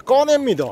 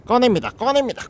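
First: The big pull-out moment, voice peaking; triumphant peak. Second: 꺼냅니다 said twice, rising and eager; building up to pulling the crab out; eager announcing. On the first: To viewers as the crab comes out, triumphant call. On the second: To viewers while grabbing the crab, rising excitement. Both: Real, not acted.

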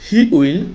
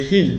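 First: Said in the usual way. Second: "he'll" as one syllable; contracted form. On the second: Shown as a demonstration. Teacher models pronunciation, "he'll" in a single syllable. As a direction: merge it into a short "he'll". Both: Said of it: "কি উচ্চারণ হবে?".

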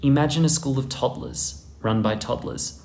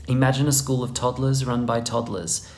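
Both takes have the same delivery.

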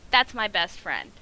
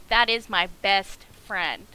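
First: "That's my best friend" loud, at normal speed; emphatic declaration. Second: "That is my best friend" loud, each word weighted; slow emphatic repeat. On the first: Declares game character his friend. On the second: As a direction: spell out "That is my best friend" slowly and forcefully. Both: Real, not acted.

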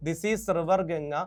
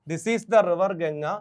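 First: Said in the usual way. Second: "the" given a little extra weight before "river Ganga"; stress on the. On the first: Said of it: "this is the ഉണ്ട് കേട്ടോ". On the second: Shown as a demonstration. Teacher correcting the sentence for students, leaning on "the". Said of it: "this is the ഉണ്ട് കേട്టോ".

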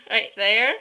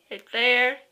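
Both takes have the same delivery.

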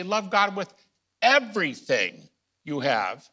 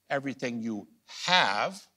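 First: Higher and louder, pressing each word; emphatic, louder. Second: Said in the usual way. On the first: Shown as a demonstration. Teacher stressing the command to students, louder and higher. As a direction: drive it home like a preacher. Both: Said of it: "I say".

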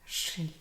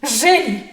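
First: Soft, subdued repetition; low-key murmur after an outcry; hushed echo. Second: Loud, high dramatic cry; sudden ringing exclamation; outcry. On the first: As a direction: say it quietly, as if to oneself. Echoes own outcry, hushed. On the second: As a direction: cry it out sharply, falling at the end. Seizes on the word, cries out. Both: Acted.

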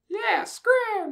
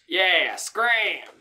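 First: Very high squeaky yell; tiny squeaky voice telling him to scram; much higher pitched scream. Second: Slightly high yell. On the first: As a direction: shriek it way up high. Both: Acted. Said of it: "a much higher pitched voice screamed".

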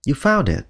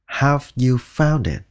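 First: Said in the usual way. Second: Slow, careful "Have you found it?"; slow full form. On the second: Shown as a demonstration. Teacher showing the first of two ways, slowly. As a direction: take it slowly and fully. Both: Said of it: "có thể nói hai cách".

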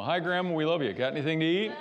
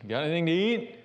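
First: Put-on high, bright-eyed child asking for food, louder; a hungry grandkid at the door; kid greeting Grandma. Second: Put-on kid asking Grandma. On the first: Grandkid greeting Grandma at her house, hoping for food, high and eager. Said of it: "you know". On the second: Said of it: "us going to Grandma's house".

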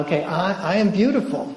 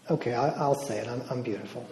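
First: Finally believe it as you say it; confident declaration. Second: Quiet and hesitant, barely committing; timid, unconvinced. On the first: Deborah, urged for more volume, speaking out with conviction. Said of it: "she gets this smile". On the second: Deborah, prompted by the speaker, quietly hesitant. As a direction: say it like you don't believe it yet. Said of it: "say it like you mean it". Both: Retold or imitated.

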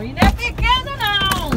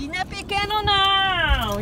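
First: "não" stressed, rising and louder; proud emphasis. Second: Said in the usual way. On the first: Real, not acted. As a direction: insist it's big, leaning on "não". (ênfase orgulhosa no "não", subindo e mais alto)

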